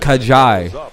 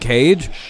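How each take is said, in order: First: The name is said unlike the English word cage. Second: The name is read like the English word cage. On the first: The name is said the way its owner says it. The speaker calls it right. "No, it's Kajai" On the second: The name is read as it is spelled. The speaker calls it wrong. "it's just spelled Cage"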